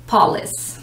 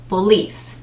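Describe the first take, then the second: First: The stress is on the first syllable. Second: The stress is on the second syllable. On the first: The speaker calls it wrong. "Normally people put the emphasis on the first syllable" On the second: The speaker calls it right. "the stress of the syllable is on the second one, not the first"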